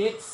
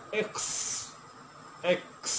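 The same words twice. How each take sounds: First: Said in the usual way. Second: "এক্স" with a touch of খ in the ক; slight kh sound. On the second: Shown as a demonstration. Teacher demonstrating the letter X to learners, "এক্স" with slight kh. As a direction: say "এক্স" with a breath of kh before a long s. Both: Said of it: "কিছুটা twenty percent খ আসবে".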